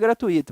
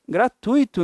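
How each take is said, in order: First: The stress falls on a shifted syllable. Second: The stress falls on the expected syllable. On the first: The speaker calls it wrong. "o curso nunca vai ser gratuito" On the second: The speaker calls it right. "vai ser gratuito no máximo"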